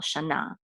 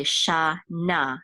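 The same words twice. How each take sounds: First: Shana said joined up as "sha-NA"; stress on last syllable. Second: Shana drawn out slowly as "sha... na"; syllable by syllable. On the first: Teacher showing where the accent falls, shana stressed on last syllable. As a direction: put the accent on the end of shana. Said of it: "the accent is on the last syllable". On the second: Teacher sounding out shana for Hebrew learners, syllable by syllable. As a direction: sound out shana in two slow parts. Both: Shown as a demonstration.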